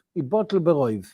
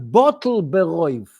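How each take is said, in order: First: Said in the usual way. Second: "bottle beroiv" said slowly, each word weighted; emphasis on bottle beroiv. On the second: Shown as a demonstration. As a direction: lean hard on "bottle beroiv", slow it down. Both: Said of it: "I'm emphasizing the word bottle beroiv".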